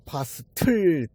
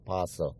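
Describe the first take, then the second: First: A clear t sound is pronounced mid-word. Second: No t sound is pronounced mid-word. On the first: The speaker calls it wrong. "파스틀로 발음해야 되는 줄 알았더니" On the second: The speaker calls it right. "T는 발음이 안 나고 그냥 파서"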